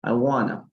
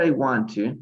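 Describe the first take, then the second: First: "I wanna", no T, reduced to one word; casual connected-speech "wanna"; spoken contraction. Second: "want to" in full, with the T sounded; careful, unreduced "want to"; uncontracted. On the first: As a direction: run "want to" together as "wanna". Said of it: "normalmente la pronunciación sería como". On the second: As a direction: say "I want to" as separate words, T pronounced. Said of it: "en vez de decir". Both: Shown as a demonstration.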